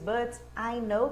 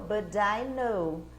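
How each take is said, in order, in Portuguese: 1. As palavras são ditas separadamente. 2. As palavras são ligadas em um som só. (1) "Ao invés de" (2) "então isso é o inglês grudado"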